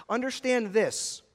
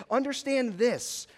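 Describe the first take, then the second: First: Said in the usual way. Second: Understand this, slowed, understand stressed and falling; emphatic appeal. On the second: Shown as a demonstration. Preacher urging young people, slow and emphatic.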